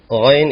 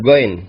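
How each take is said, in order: First: It begins with a flowing, throaty fricative sound. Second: It begins with a hard, stopped g sound. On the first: The speaker calls it right. "ghain itu bukan g" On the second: The speaker calls it wrong. "bukan goin"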